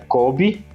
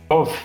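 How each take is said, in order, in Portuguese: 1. A consoante do meio é som de B. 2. A consoante do meio é som de V. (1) "Eu acho que se pronuncia Kobe" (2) "se pronuncia como V"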